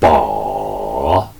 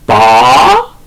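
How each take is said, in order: First: The pitch dips low, then rises. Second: The pitch rises toward the end. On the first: "제삼성은 더 내려갔다 올라갑니다" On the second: "제이성은 두 단계 내려와서 끝이 올라가죠"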